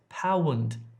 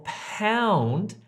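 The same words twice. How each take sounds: First: The vowel splits into two separate short sounds. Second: The vowel glides smoothly as one sound. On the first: The speaker calls it wrong. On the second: The speaker calls it right.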